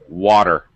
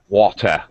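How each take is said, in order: First: The t is a quick flapped d sound. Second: The t is a clear, crisp t sound. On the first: This is the normal American way. "There's another example" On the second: This is the normal British way. "It's perfectly normal for a British person to pronounce it with uh"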